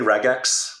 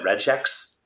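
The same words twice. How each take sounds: First: The g is a hard g sound. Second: The g is a soft j sound. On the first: "hard G" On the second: "with a J"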